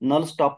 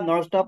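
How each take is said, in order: First: The first word ends in a plain L sound. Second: The first word ends in a retroflex L sound. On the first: The speaker calls it wrong. "असं म्हण न म्हणता" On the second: The speaker calls it right. "नळ stop उद्घोषणा केली पाहिजे"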